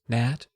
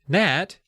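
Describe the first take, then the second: First: It is said softly. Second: It is said at normal volume.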